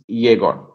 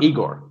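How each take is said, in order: First: The name begins with a 'yeh' sound. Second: The name begins with an 'ee' sound. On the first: The speaker calls it right. "you pronounce it with an E, not an I for the Y" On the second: The speaker calls it wrong. "His first name is not Igor"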